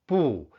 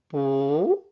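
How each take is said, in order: First: The syllable is said with a falling tone. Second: The syllable is said with a rising tone.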